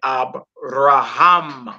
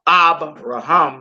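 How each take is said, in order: First: The stress falls on the last syllable. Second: The stress falls before the last syllable. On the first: The speaker calls it right. "you say Abraham" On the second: The speaker calls it wrong. "Instead of saying"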